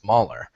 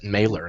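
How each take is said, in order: First: The first vowel sounds like 'ah'. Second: The first vowel sounds like 'ay'. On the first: The speaker calls it right. "and it's Mahler" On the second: The speaker calls it wrong. "he pronounces it Mailer"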